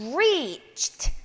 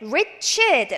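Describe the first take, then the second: First: The final consonant sound is voiceless. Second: The final consonant sound is voiced. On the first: The speaker calls it right. "vocal cord, 목 성대를 쓰지 않는 사운드가 나와야 됩니다" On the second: The speaker calls it wrong. "reached 라고 읽지 않도록 주의하시기 바랍니다"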